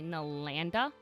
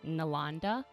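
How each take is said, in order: First: The middle syllable rhymes with 'and'. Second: The middle syllable sounds like 'on'. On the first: This is how others usually say the name. The speaker calls it wrong. "People s often say Nalanda a lot" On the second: This is how the name's owner says it. The speaker calls it right. "even though I'm more like Nalanda"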